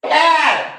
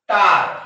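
First: The vowel is a short front 'a' sound. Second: The vowel is a long open 'ah' sound. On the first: The speaker calls it wrong. "ज्या विद्यार्थ्यांना हा नियम माहित नाही ते काय म्हणतील" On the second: The speaker calls it right. "या येचा उच्चार त्या प्रकारच्या स्पेलिंग मध्ये आ होतो"

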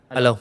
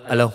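Both takes have the same delivery.

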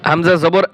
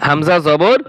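No difference in how they are said.

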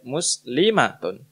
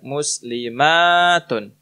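First: The vowel in 'ma' is short. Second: The vowel in 'ma' is long. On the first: "ini kita baca pendek" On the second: "ma-nya kita baca panjang"

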